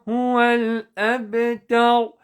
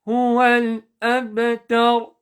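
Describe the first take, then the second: Both takes have the same delivery.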